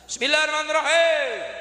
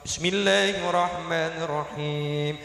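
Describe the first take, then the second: First: The voice is rough and harsh. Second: The voice is soft and gentle. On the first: It imitates a stern imam's recitation. "ora bisa alus" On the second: It imitates a gentle imam's recitation. "suarane apik, lembut, nang kuping nyes"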